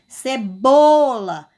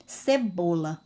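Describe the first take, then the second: First: Cebola very slowly, BO long and loud; stress on BO. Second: Said in the usual way. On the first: Shown as a demonstration. Teacher showing pupils the tonic syllable, BO stressed in cebola. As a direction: stretch and punch the middle syllable of cebola. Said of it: "Qual a sílaba mais forte". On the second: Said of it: "um exemplo da palavra cebola".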